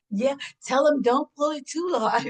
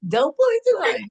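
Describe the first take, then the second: First: A playful half-shout about the wig; joking mock shout. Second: Higher and louder, cracking up on "pull"; gleeful repeat. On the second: Retold or imitated. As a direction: shout the punchline again through laughter. Repeats the punchline, laughing.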